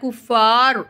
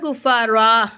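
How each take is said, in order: First: The word ends with a clipped -ar sound. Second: The word ends with a long -aa sound. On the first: The speaker calls it wrong. "குஃபார் அப்படின்னு சொல்லாமல்" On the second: The speaker calls it right. "குஃபாரா அப்படின்னு நம்ம சொல்கிறோம்"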